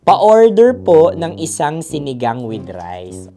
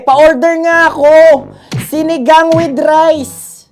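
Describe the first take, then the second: First: It is said in a calm, plain voice. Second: It is said in a furious, shouting voice.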